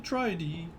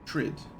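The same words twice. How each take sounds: First: It is said as two syllables, like 'try-dee'. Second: It is said as one syllable, rhyming with 'lid'. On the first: "that looks like tri-D" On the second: "I thought they called it Trids other places"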